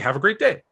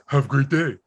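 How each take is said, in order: First: The phrase sounds warm and friendly. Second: The phrase sounds curt and rude. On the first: The writer sincerely wishes the reader well. "And I just and I said like" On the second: The reader takes it as hostile. "why are you such a jerk?"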